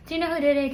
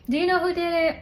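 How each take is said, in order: First: Said in the usual way. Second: High, bright teasing question to the audience; playful raised teasing ask. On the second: Shown as a demonstration.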